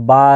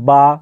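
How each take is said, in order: Both takes have the same delivery.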